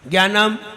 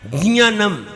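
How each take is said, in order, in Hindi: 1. यह कठोर g-y ध्वनि से शुरू होता है। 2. यह नासिक j-y ध्वनि से शुरू होता है। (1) "इट इज रॉन्ग, ना इसमें गा है ना इसमें या है" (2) "जा और या नाक से आएगा, ज्ञानम, ये सही है"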